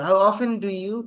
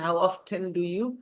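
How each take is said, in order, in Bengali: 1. often-এ t নীরব থাকে। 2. often-এ t স্পষ্ট উচ্চারিত হয়। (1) "হাউ অফেন ডু ইউ বলার চেয়ে" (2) "এই অফটেন বলে যখন এই ধাক্কাটা দিয়ে পরের ওয়ার্ডটাকে বলতে সুবিধা হয়"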